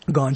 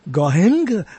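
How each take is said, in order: First: The name is pronounced just like 'gone'. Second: The name is not pronounced like 'gone'. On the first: The speaker calls it right. "But it's Gaughan, as in Gaughan Girl" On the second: The speaker calls it wrong. "They would say Gaughan"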